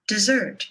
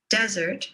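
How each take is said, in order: First: "dessert" with weak "de", strong "SSERT"; second-syllable stress. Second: "desert" stressed on "des", short "sert"; first-syllable stress. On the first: Teacher contrasting two words, second-syllable stress on "dessert". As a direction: hit the last syllable of "dessert". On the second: Teacher contrasting two words, first-syllable stress on "desert". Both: Shown as a demonstration. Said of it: "Stress is what makes these words recognizable".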